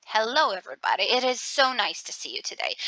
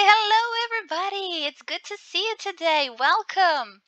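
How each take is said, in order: First: Sarcastic. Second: Bright, high and welcoming, sounding glad to see them; warm welcoming greeting. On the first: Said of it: "you can feel that I have some sarcasm in my voice". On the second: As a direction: greet the room as if truly happy they came. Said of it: "My tone of voice is creating a certain kind of a mood". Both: Shown as a demonstration.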